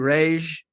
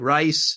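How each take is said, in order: First: The name is said like 'ray-gee', Portuguese style. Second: The name is said like the word 'rice'. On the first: This is how Portuguese speakers say it. "the Portuguese people will say Rege" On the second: This is how Eastern European speakers say it. "Eastern European pe- people will say rice"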